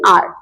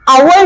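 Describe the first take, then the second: First: It is said as one syllable, like are. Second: It is said as two syllables, like ow-er. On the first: The speaker calls it right. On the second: The speaker calls it wrong. "आवर नहीं"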